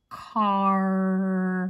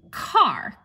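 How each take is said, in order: First: "car." drawn out slowly on a long r; stretched final sound. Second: Said in the usual way. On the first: Shown as a demonstration. Teacher asking for the last letter, car stretched out. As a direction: hold the r at the end of "car.". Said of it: "What letter here?".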